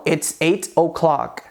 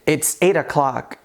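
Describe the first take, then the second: First: The words are said separately and clearly. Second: Eight and o'clock are joined without a break. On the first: The speaker calls it wrong. "e não ... De uma maneira tão separada" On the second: The speaker calls it right. "opte por dizer"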